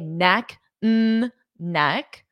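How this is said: The words are separated by pauses. The speaker calls it wrong. "So I can't say neck, mm, neck. That doesn't sound correct"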